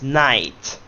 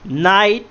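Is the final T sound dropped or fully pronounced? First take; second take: pronounced; dropped. First: The final T sound is fully pronounced. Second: The final T sound is left off. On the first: The speaker calls it right. "The correct way is night" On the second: The speaker calls it wrong. "It's not night"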